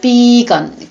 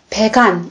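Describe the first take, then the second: First: The first vowel is a long 'ee' sound. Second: The first vowel is a short 'e' sound. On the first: "원래는 이가 깁니다" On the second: "발음을 살짝 바꿨습니다"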